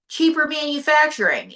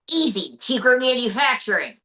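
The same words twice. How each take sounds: First: "Cheaper manufacturing" echoed higher in disbelief; mock disbelief. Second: Said in the usual way. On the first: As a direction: repeat it as if you can't believe it. Interviewer echoes incredulously.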